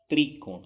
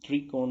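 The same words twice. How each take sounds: First: त्रिकोण with a clear "tree" start; plain i after tr in त्रिकोण; correct "त्रि" pronunciation. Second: त्रिकोण with a vibrating "trr" start; barely any i in त्रिकोण; wrong तृ pronunciation. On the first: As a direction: say त्रिकोण as "tri-kon", louder. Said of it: "त्रिकोण होता है". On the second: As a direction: say त्रिकोण as तृकोण. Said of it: "त्रिकोण नहीं होता". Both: Shown as a demonstration.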